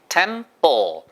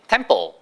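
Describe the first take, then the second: First: The word is said slowly and carefully. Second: The word is said quickly.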